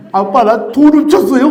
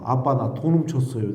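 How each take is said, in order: First: Loud, high mock wail; crying-out confession, hammed up; imitated tearful confession. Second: Said in the usual way. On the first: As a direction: blurt it out like a bawling child. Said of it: "막 울면서 막 얘기를 하게 된 거예요". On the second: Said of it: "나 이 소리를 절대로 못 하겠는 거예요".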